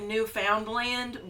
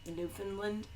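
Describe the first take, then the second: First: It is said the way the spelling reads. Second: It is said the way locals say it. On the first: The speaker calls it wrong. "It's spelled like Newfoundland" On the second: The speaker calls it right. "but you pronounce it Newfoundland"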